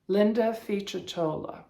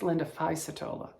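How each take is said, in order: First: The surname's 'c' has the Italian sound. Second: The surname's 'c' does not have the Italian sound. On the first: The speaker calls it right. "I said that with the Italian C" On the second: The speaker calls it wrong. "I don't think it's"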